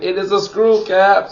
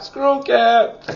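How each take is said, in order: First: Said in the usual way. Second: Screw cap sung out much higher; a teasing high echo of screw cap; playful high repeat. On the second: Shown as a demonstration.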